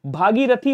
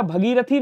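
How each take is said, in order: First: भागीरथी with long first aa; correct long vowel. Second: भगीरथी with short first a; wrong short vowel. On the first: Teacher correcting students, long "bhaa" in भागीरथी. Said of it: "होता है". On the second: Teacher showing students the error, short start on भगीरथी. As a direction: open with "bha" in भगीरथी, short. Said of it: "नहीं होता है". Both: Shown as a demonstration.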